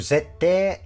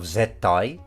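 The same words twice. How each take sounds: First: The ending is a drawn-out 'ee' sound. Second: The ending is a clear 'ai' sound.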